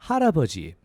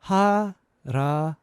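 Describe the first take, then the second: First: It is said fast. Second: It is said slowly.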